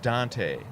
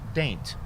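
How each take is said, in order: First: The name is said as an outsider reads it. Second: The name is said the way locals say it. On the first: The speaker does not know the town. The speaker calls it wrong. "if you didn't know how to pronounce it, you would pronounce it" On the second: The speaker knows the town. The speaker calls it right. "but it is indeed pronounced"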